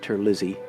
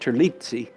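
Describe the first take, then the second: First: The name is given an American pronunciation. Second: The name is given an Italian pronunciation. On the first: This is how the name's owner says it. "it's been Americanized, I think, so he pronounces it Terlizzi" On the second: This is how the name would be said in Italian. "in Italian it ought to, it should be pronounced Terlizzi"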